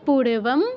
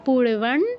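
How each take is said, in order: First: The word ends with an m sound. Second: The word ends with an n-like nasal sound.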